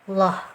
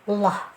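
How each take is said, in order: The two takes are said the same way.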